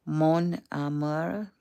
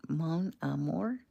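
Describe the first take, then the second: First: Drawn-out French accent attempt on "Mon amour"; tentative, stretched French accent. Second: Softer French accent try, "amour" rising; quiet, questioning French accent. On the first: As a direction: try a slow French accent, rising at the end. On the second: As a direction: attempt "Mon amour" slowly in a French accent. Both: Shown as a demonstration. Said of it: "French accent".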